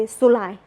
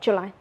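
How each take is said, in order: First: SULAI for July, starting "zoo"; Burmese pronunciation. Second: JULY with an English J sound; English pronunciation. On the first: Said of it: "we say Sulai". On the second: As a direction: say JULY the English way, "joo-LIE". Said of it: "not July". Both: Shown as a demonstration.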